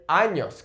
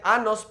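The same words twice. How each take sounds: First: Años said with ñ, "AH-nyos"; correct ñ pronunciation. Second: Años said as plain "anos", an ordinary n instead of ñ; wrong pronunciation. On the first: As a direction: say años with a clear palatal ñ, "AH-nyos". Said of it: "with the accent there". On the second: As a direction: mispronounce años as "AH-nos" with no ñ sound. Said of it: "Don't say años because that means anuses". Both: Shown as a demonstration.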